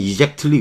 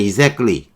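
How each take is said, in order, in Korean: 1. -ly 앞의 t 소리는 확실히 발음합니다. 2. t 소리는 빠지고, klee처럼 끝납니다. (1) "그렇게 발음하지 마세요" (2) "끌리로 보통 발음합니다"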